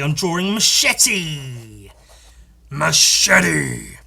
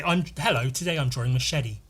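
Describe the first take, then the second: First: Machete said with a clear hard T, slow and loud; machete, sharp T sound, spoken loud. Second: Machete with a soft flapped D, american style. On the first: Showing viewers how he says machete, loud, hard T. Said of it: "I have to pronounce the T". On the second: Showing viewers the silly flapped D in machete. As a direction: say machete as məʃɛdi. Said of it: "See how silly that sounds?". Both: Shown as a demonstration.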